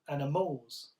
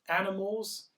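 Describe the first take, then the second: First: The stress is on the final syllable. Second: The stress is on the first syllable. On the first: "if it's on the final syllable" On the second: "if it's on the first syllable"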